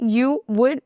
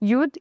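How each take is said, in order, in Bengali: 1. এটি দুটি আলাদা পূর্ণ শব্দ হিসেবে বলা হয়। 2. এটি একটি ছোট, সংকুচিত একক শব্দাংশ হিসেবে বলা হয়।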